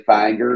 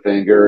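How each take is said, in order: First: "finger" said like "fanger"; Kentucky pronunciation. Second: Said in the usual way. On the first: Retold or imitated. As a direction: broaden the first vowel of "finger" to "fang". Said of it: "I say finger instead of finger". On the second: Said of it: "instead of finger".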